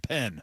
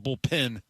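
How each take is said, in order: First: The second syllable sounds like 'pen'. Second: The second syllable sounds like 'pin'. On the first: The speaker calls it right. "it's a bullpen" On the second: The speaker calls it wrong. "It's not a bullpen"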